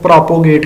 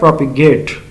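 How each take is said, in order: First: The second syllable has a full 'o' vowel. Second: The second syllable has a weak, reduced vowel. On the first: The speaker calls it wrong. "इसको अक्सर लोग प्रोपोगेट कहते हैं, जो गलत word है" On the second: The speaker calls it right. "ये लफ्ज़ होता है प्रोपिगेट"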